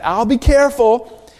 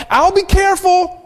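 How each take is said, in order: First: Lightly voiced carefree little boy; breezy boy's reply. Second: Put-on much higher, louder boyish holler; hollered back. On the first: Five-year-old Jimmy brushes off the warning, lightly voiced boy. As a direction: toss it off like a five-year-old, a touch higher. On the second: Jimmy hollers back to Aretta while heading for the steps, high boyish shout. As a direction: shout it back over your shoulder like a kid. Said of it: "he hollered back".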